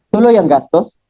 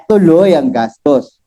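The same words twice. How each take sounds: First: "Tuloy ang gastos?" asked, rising a little at the end; asked as a question. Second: Said in the usual way. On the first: Shown as a demonstration. Speaker to retiree: the expenses go on, asked. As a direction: put it to her as a question.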